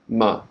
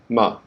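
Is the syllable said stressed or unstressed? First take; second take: unstressed; unstressed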